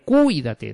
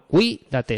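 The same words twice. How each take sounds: First: The stress falls on the u sound. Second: The stress falls on the i sound. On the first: The speaker calls it wrong. "no vamos a decir cuídate, no" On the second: The speaker calls it right. "se pone sobre la segunda"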